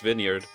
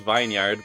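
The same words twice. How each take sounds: First: The first part is short, sounding like vin. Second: The first part sounds like the word vine. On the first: The speaker calls it right. "it's vineyard" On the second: The speaker calls it wrong. "I always pronounced it as vineyard, but no"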